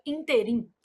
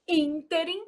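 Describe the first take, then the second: First: "interim" as in-te-RIM; stress on last syllable. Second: "ínterim" as ÍN-te-rim; stress on first syllable. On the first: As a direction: say "interim" as an oxytone. ("interim" errado, tônica no RIM) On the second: ("ínterim" com a tônica no ÍN) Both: Shown as a demonstration. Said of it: "a pronúncia seria interim".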